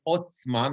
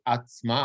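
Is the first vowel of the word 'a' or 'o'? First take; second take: o; a. First: The first vowel sounds like 'o'. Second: The first vowel sounds like 'a'. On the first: The speaker calls it right. "the word is otzma" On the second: The speaker calls it wrong. "not atzma"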